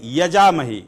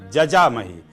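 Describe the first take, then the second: First: The word begins with a 'y' sound. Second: The word begins with a 'j' sound. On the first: The speaker calls it wrong. "और फिर क्या बोलते हैं? यजामहे। यजामहे शब्द नहीं है" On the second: The speaker calls it right.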